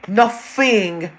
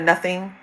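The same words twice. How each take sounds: First: The middle sound is an f sound. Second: The middle sound is a th sound. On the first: "she does T H words with F's" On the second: "Instead of nothing"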